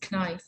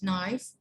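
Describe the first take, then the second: First: The word begins with a k sound. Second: The word begins with an n sound. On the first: The speaker calls it wrong. "I heard many times they say knife ... These are wrong" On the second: The speaker calls it right. "The K is silent"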